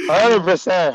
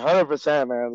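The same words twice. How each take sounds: First: Loud, high hundred percent; excited yes from the gut; emphatic agreement. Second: Said in the usual way. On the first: Real, not acted. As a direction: agree with full force.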